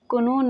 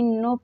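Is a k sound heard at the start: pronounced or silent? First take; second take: pronounced; silent. First: A k sound is heard before the n. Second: No k sound is heard before the n. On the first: The speaker calls it wrong. "इसको कोनो नहीं" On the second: The speaker calls it right. "नो पढ़ते हैं, के silent रहता है"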